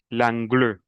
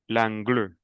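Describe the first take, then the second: No difference in how they are said.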